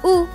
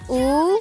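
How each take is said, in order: First: It is said with the fourth tone. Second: It is said with the second tone. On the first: "Lalu bentuk keempat" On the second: "Bentuk kedua"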